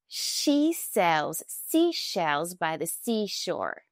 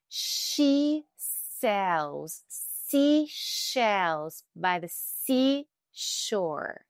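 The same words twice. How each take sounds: First: It is said a bit faster, less exaggerated. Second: It is said slowly, with exaggerated s and sh. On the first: "Un petit peu plus vite" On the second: "essayez en exagérant ces deux sons"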